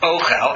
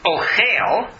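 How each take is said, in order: First: The stress is on the first syllable. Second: The stress is on the second syllable. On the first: It means food. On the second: It means one who eats.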